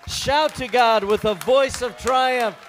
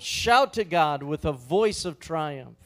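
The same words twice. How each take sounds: First: It is said loudly. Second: It is said quietly.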